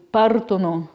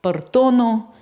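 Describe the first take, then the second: First: Partono said as PAR-to-no, stress on the first syllable; correct Italian stress. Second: Partono said as par-TO-no, stress wrongly on the middle syllable; dyslexic misreading. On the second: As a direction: demonstrate the reading error in partono, stressing TO. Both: Shown as a demonstration. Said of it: "instead of reading".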